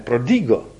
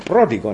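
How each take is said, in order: First: The stress falls on a regular syllable. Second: The stress falls on an irregular syllable. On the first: The speaker calls it wrong. "ne prodigo" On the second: The speaker calls it right. "I se správným přízvukem prodigo"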